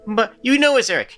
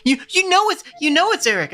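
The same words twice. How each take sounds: First: Put-on whiny kid voice. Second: Put-on high nasal kid with a stutter; stuttering whiny kid. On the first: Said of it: "whinier and very, very nasal". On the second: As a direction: stammer it like a whiny little boy. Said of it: "I gave him a bit of a stutter". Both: Shown as a demonstration.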